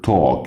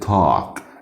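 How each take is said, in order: First: It has a rounded British vowel. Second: It has an open American vowel.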